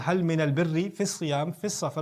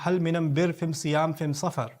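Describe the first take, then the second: First: The article is said with an l sound. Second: The article is said with an m sound.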